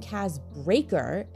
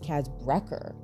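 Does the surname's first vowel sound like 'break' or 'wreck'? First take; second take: break; wreck. First: The surname's first vowel sounds like in 'break'. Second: The surname's first vowel sounds like in 'wreck'. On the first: The speaker calls it wrong. "So I called him Kaz Breaker" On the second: The speaker calls it right. "and his name is Kaz Brecker"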